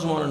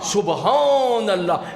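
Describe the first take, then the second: First: The phrase is rushed out very quickly. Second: The phrase is said slowly and carefully. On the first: The speaker calls it wrong. "इस तरह नहीं ... जल्दी नहीं करनी भाई।" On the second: The speaker calls it right. "इसको बड़ी एहतियात से पढ़िएगा।"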